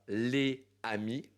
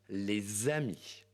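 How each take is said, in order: First: The s is not linked to amis. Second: A z sound links les to amis. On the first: The speaker calls it wrong. "on ne dit pas" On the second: The speaker calls it right. "on va dire"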